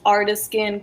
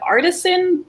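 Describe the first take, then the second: First: The word is said with an altered, quirky pronunciation. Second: The word is said with its standard pronunciation. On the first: "this is how Raj pronounces it" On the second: "it's actually just the word artisan"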